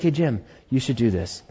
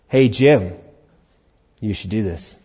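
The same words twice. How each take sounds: First: It is said in a quiet voice. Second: It is said in a louder, raised voice. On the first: It is an early gentle prompting. "Was he using a quieter voice before?" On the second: It is a later, more insistent prompting. "God will keep raising his voice"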